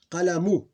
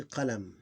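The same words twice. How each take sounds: First: "Qalamu" higher and louder, final u sounded; full vowel ending. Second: "qalam" stopping on m, no u; sukoon ending. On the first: Teacher reading the word before sukoon, vowel pronounced. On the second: Teacher showing the word with sukoon ending, vowel dropped. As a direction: say "qalam" closed on the m. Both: Shown as a demonstration. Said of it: "With sukoon ending".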